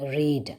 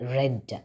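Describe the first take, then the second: First: The vowel is long, like 'reed'. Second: The vowel is short, like 'red'. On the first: It is the present form. "ഫസ്റ്റിലത്തത് റീഡ് ആണ്" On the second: It is the past form. "Second one is റെഡ്"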